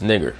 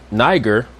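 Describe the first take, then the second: First: "nigger" with front I, not eye; corrected vowel. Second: "Niger" with an eye vowel; mispronounced long I. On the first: Teacher corrects the first verse, "nigger" without long I. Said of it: "is just". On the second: Teacher repeats the frequent misreading, "Niger" with long I. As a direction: say "Niger" with first syllable like "nigh". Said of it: "as is mispronounced oftentimes". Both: Shown as a demonstration.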